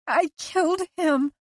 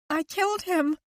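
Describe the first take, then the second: First: Much higher and louder, desperate; anguished, louder. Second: Much higher, stricken; anguished confession. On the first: Liz insisting to Owen, louder anguish. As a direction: repeat it harder, breaking. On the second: Liz confessing to husband, anguished and higher. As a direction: blurt it out in anguish. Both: A narrator's reading.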